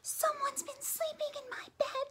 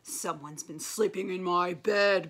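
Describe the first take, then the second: First: It is said in a high squeaky voice. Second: It is said in a deep growling voice.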